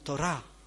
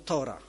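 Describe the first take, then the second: First: The stress falls where Hebrew speakers place it. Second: The stress falls where Polish speakers place it. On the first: The speaker calls it right. "Oni mówią Tora. Tora, jest tylko gdzie indziej akcent" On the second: The speaker calls it wrong. "Polacy mówią Tora"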